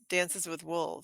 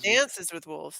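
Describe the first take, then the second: First: The word dances carries no special emphasis. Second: The word dances carries strong emphasis. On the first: The speaker calls it right. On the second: The speaker calls it wrong.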